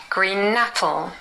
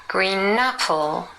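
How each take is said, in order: Both takes have the same delivery.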